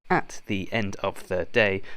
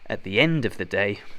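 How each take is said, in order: First: Each word is said separately without linking. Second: The words run together with linking sounds. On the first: The speaker calls it wrong. "Saying each word at the end of the day does not sound good, so don't do this" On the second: The speaker calls it right. "To sound natural, we need a linking sound and a soft sound"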